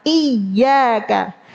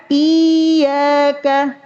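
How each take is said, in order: First: "Iyyaka" with the doubled y pressed, mid-tongue to the palate. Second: "iyyaka" drawn out slowly, first vowel held long; lengthened ya. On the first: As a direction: press the y in "Iyyaka", don't lengthen it. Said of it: "tapi ditekan makhrajnya". ("Iyyaka" dengan ya ditekan, bukan dipanjangkan) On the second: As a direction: stretch the start of "iyyaka" instead of pressing the y. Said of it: "Bukan dipanjangin". ("iyyaka" dipanjangkan, ya tidak ditekan) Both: Shown as a demonstration.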